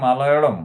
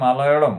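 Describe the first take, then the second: First: The second l is a retroflex sound. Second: The second l is a retroflex sound.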